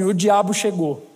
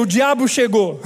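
First: Low ominous inner voice. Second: Said in the usual way. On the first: Retold or imitated. Voice in his head warns him, low and ominous. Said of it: "veio uma voz na minha cabeça assim".

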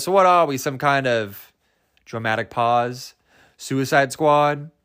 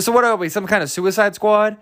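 First: Mock movie line with a pause before a slow "Suicide Squad"; dramatic pause. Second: Mock stupid. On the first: Mocking Will Smith's title drop, dramatic pause before "Suicide Squad". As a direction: hold back, then draw out "Suicide Squad". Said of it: "That was insert dramatic pause". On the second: Mocking the film's title drop, stupid-sounding delivery in one go. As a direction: push "Suicide Squad" out without a pause. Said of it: "like, stupid he said it".

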